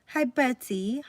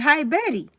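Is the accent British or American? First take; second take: British; American. First: It is said in a British accent. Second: It is said in an American accent.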